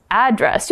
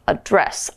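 First: "address" with stress on the first syllable, AD-dress. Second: "address" with stress on the second syllable, uh-DRESS. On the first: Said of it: "I said that two different ways". (address重音放在第一音節) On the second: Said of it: "You can only say address". (address重音放在第二音節) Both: Shown as a demonstration.

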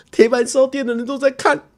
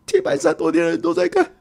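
First: High, near-crying whisper of panic; a mock cry of embarrassment; panicked inner voice. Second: Higher again, pleading in mock despair; the second, more desperate repeat; rising panic. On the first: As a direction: everyone is watching, squeaky and close to tears. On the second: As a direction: push the panic up another notch. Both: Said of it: "我就想说".

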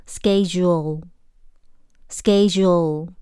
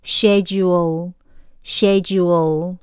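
First: Schedule said "SKED-jool" with a hard k; schedule the American way, very slowly; American pronunciation. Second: Schedule the British way, slowly; British pronunciation. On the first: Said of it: "美式". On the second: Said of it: "那英式". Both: Shown as a demonstration.

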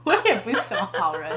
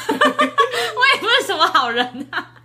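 First: Mocking echo. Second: High laughing protest, drawn out. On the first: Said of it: "mock echo of her line". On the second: Real, not acted. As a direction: laugh through the words, slowly. Laughing self-deprecation. (笑着慢慢说)

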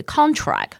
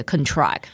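First: CONtract, first syllable punched; stress on first syllable. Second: ConTRACT, second syllable punched; stress on second syllable. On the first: Teacher models the noun for a student, contract stressed on CON. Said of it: "合约的重音是在第一个音节". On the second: Teacher models the verb for a student, contract stressed on TRACT. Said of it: "它的重音就会在第二个音节". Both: Shown as a demonstration.

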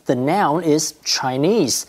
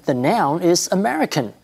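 First: "Chinese" slow and weighted, the word that names the noun; slow down and lean on "Chinese"; stress on Chinese. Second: "American" lifted higher to mark it as the noun; stress on American. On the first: Teacher pointing out the noun to learners, leaning on "Chinese". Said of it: "the emphasis is on ethnicity". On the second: Teacher contrasting the noun for learners, lifting "American". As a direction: pitch up and lean on "American". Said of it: "So the emphasis is on nationality". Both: Shown as a demonstration.

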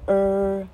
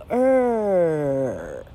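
First: 呃 as "er" of ordinary length; r-coloured 呃 without a long stretch; curled-tongue vowel. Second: 呃 stretched into a very long "errr"; slow, gliding r-coloured 呃; long curled vowel. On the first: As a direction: curl the tongue briefly on 呃. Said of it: "刚刚的卷舌，". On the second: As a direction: draw 呃 out slowly with the tongue curled. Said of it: "但是它还可以发长音，". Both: Shown as a demonstration.

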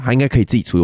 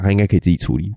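First: Fast shrug. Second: Said in the usual way. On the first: Shown as a demonstration. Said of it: "男生说没事就是没事". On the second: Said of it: "我就想想".

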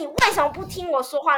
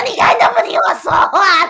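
First: Lightly retold indignation. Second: Loud, high tearful wail; retold crying protest; sobbing complaint. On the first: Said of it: "我觉得". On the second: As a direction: cry it out as you storm off. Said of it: "我就开始爆哭".

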